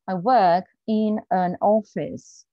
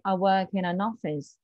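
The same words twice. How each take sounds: First: Each word is said separately, without linking. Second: Consonants run smoothly into the following vowels. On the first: The speaker calls it wrong. "This is probably what you would say" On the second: The speaker calls it right. "But an English person will say"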